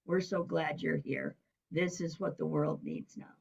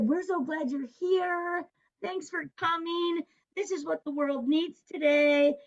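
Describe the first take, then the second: First: Hushed but voiced, softer; imitated whisper. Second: Gushing welcome. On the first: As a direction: confide it softly, as if into someone's ear. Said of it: "make those whispers in my ear". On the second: Retold or imitated. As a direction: imitate a delighted crowd greeting, pitched way up. Retells crowd's grateful welcome.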